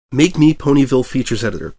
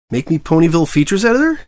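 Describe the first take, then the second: First: Firmer, louder statement, falling at the end; more confident. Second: Said in the usual way. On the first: A narrator's reading. Reporter repeats his request to his editor, confident. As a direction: say it like you mean it this time. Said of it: "a little more confidently". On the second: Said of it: "said again".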